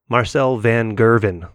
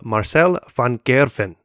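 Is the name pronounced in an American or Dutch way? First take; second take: American; Dutch. First: The name is pronounced the American way. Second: The name is pronounced the Dutch way.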